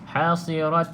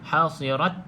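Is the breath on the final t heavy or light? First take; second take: heavy; light. First: The final t has a long hissing breath. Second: The final t has a short, light breath. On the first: The speaker calls it wrong. "itu uh, Hamas yang berlebihan. Maka dia akan jadi seolah-olah huruf sin" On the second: The speaker calls it right. "Ha, macam tu"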